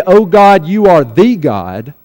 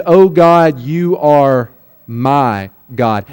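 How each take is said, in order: First: "the" said as a long "thee", running on without a break; slow line leaning on "the" as "thee"; stress on THE. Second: "my" low, drawn out and set apart by pauses; stress on MY. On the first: Preacher quoting what David doesn't say, stress on THE. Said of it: "He doesn't say". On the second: Preacher correcting to what David really says, stress on MY. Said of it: "He says". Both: Shown as a demonstration.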